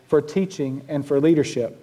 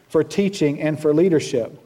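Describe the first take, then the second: No difference in how they are said.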